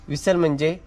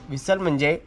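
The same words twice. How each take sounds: The two takes are said the same way.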